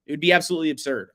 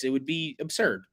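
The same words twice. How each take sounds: First: "absolutely absurd" hit harder, louder and fast; emphatic. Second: Said in the usual way. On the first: Real, not acted. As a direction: push "absurd" hard, speed up.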